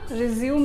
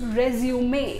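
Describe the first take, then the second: First: The word ends on a plain m sound. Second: The word ends with an added ay vowel. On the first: The speaker calls it wrong. "रिज्यूम नहीं होता है दोस्तों" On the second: The speaker calls it right. "इसका pronunciation रेज्यूमे"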